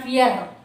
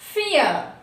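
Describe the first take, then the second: First: The word ends with an audible r sound. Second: The word ends without an r sound. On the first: The speaker calls it wrong. "Not ఫియర్" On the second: The speaker calls it right.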